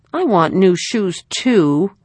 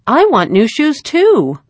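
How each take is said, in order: First: Pouting little sister insisting; obstinate repeat. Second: Put-on high, louder, slow little-girl pipe; little sister piping up at the table. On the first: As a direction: dig in like a pouting child. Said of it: "she repeated obstinately". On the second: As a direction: chirp it like a small child wanting the same. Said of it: "piped up little Arvella". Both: A narrator's reading.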